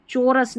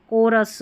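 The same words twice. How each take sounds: First: चोरस starting with a ch sound; wrong pronunciation. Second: कोरस starting with a hard k; correct pronunciation. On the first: Teacher shows learners the mistake, चोरस with ch. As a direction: misread chorus as "cho-rus", चोरस. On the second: Teacher corrects the word for learners, कोरस with k. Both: Shown as a demonstration. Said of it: "चोरस नहीं कोरस".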